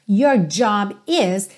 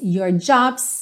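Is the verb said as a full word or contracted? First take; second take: full; contracted. First: The verb is said as a full separate word. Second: The verb is contracted onto the noun.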